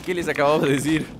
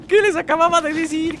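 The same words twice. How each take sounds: First: Said in the usual way. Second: Very high, squealed complaint; high-pitched dismay. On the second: Real, not acted. Gamer to viewers after warning comes true, high dismay. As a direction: wail the question way up high.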